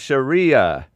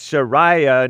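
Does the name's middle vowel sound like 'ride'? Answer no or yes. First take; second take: no; yes. First: The middle vowel does not sound like ride. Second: The middle vowel sounds like the one in ride. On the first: The speaker calls it wrong. "not Sharia" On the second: The speaker calls it right. "it's Sharia, Sharai, as in ride"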